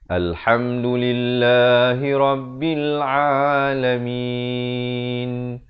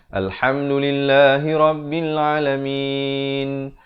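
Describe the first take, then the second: First: It is recited very slowly, each sound drawn out. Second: It is recited at a moderate, flowing pace.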